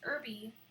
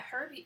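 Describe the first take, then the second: First: The name starts with a vowel, no H sound. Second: The name starts with a clear H sound. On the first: "you don't. It's just Irby" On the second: "It's not Herbie"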